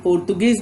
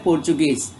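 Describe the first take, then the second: First: The middle consonant is a 't' sound. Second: The middle consonant is a 'ch' sound. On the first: The speaker calls it wrong. "ऐसा लगता है कि इसका उच्चारण पोर्तुगीज भी हो सकता है, लेकिन नहीं" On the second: The speaker calls it right. "यहाँ ट नहीं है, त नहीं है, यहाँ च है"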